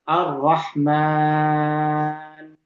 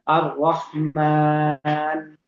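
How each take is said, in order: First: The long vowel is held for six beats. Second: The long vowel is held for four beats. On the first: "kalau kita panjangkan" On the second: "Kalau dibaca empat"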